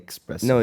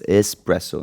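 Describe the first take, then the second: First: The word begins with an 'ex' sound. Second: The word begins with a plain 'es' sound. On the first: The speaker calls it wrong. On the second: The speaker calls it right. "it's espresso"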